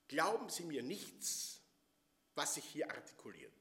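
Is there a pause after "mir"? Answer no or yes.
no. It runs on without a break after "mir". Believe nothing that is said here. "durch andere Artikulation, durch andere Betonung"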